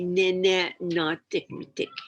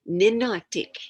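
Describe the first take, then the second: First: The word is said with all its syllables. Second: The word is said with a syllable dropped. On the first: This is the original form that is no longer used. "They don't say Ninenatik" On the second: This is the form people use today. "They say Ninatik. So the M is missing"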